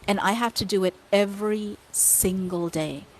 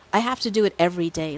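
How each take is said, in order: First: Said in the usual way. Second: Fast, stress on "do"; quick insistent repeat. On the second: Real, not acted. Repeating to the host, fast with "do" stressed. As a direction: rush it, pressing "do" hard.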